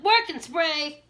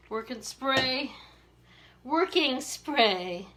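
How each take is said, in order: First: Drawn-out Maryland accent on "Working spray". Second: Said in the usual way. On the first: Shown as a demonstration. Showing her Maryland accent to viewers, drawn-out Maryland accent. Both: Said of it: "I'm gonna show my Maryland accent".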